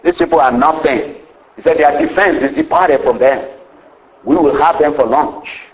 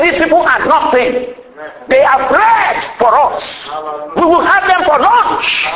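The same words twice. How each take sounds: First: Said in the usual way. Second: Bold voice of faith. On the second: Retold or imitated. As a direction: proclaim it with fearless confidence. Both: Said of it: "Caleb, he had some faith".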